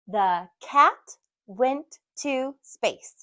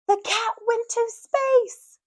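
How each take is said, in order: First: It is read in a plain, simple way. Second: It is read with strong, excited energy. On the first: It is an ordinary statement. "so we read it simply" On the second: It is an exclamation. "if we put an exclamation mark"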